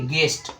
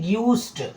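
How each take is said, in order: First: No 'y' glide follows the g sound. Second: A 'y' glide follows the g sound. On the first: The speaker calls it right. "गेस्ट सही है। यहां पर गेस्ट में यू silent है" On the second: The speaker calls it wrong. "जो ग्यूस्ट बोलेंगे कि यू लगा है तो गलत होगा"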